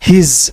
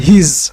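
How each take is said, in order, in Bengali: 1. একটি সংকুচিত উচ্চারণাংশ, শেষে z-এর মতো ধ্বনি। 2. একটি সংকুচিত উচ্চারণাংশ, শেষে z-এর মতো ধ্বনি।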